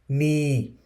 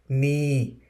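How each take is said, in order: First: The word begins with an N sound. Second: The word begins with an N sound.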